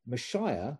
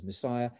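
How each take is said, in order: First: "Messiah" said as "mə-SHAI-ə" with a sh sound; "Messiah" with sh in place of s; Hebrew pronunciation. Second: Said in the usual way. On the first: Shown as a demonstration. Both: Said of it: "this is Messiah".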